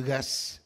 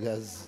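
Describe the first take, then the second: First: The word ends with an S sound. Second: The word ends with a Z sound. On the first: "on prononce bouteille de gaz pour le gaz" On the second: "l'accent qui remplace les Z par des S"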